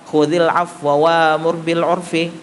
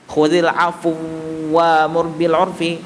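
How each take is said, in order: First: The first w keeps a brief, shortened vowel. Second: The two w sounds merge into one. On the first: "waw yang pertama dibaca dengan dua per tiga harokatnya" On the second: "bacaan yang pertama itu sebenarnya adalah idghamkan"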